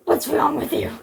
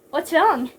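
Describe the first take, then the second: First: Rough, husky hero's question; rasped demand; gruff hero. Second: Mildly seductive question; a touch of come-hither invitation; lightly beckoning lilt. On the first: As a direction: growl it like an action hero. Narrator voices Snake, gruff hero. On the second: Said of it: "with a come hither voice". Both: A narrator's reading.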